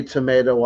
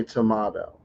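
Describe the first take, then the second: First: "tomato" said tuh-MAY-doh. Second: "tomato" said tuh-MAH-doh. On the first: Host citing the you-say, I-say saying, "tomato" as tuh-MAY-doh. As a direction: say "tomato" with a long AY in the middle. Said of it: "you say tomato, I say tomato". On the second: Host answering the you-say, I-say saying, "tomato" as tuh-MAH-doh. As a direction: say "tomato" with a broad AH in the middle. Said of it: "you say tomato". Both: Shown as a demonstration.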